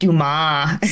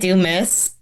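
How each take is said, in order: First: The name ends with a 'mah' sound. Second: The name ends with a 'miss' sound. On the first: This is how the author's name is said. "my daughter is now starting to pronounce it Dumas" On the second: This is how the family says the name. "we see it do miss"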